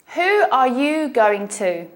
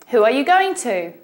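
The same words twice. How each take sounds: First: The sentence is spoken at a slower pace. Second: The sentence is spoken at a faster pace.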